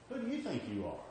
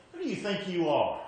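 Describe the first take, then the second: First: "Who do YOU think you are?", YOU lifted, softly said; softer question, YOU raised, then falling through "are"; stress on YOU. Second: "Who DO you think you are?", DO punched higher and louder; stress on DO. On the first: Showing the congregation another emphasis, soft stress on YOU. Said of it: "Or you can say". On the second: Showing the congregation one emphasis, indignant stress on "Who do". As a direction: challenge hard on "Who do", falling away through "you are". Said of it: "what's the emphasis? You can say it". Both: Shown as a demonstration.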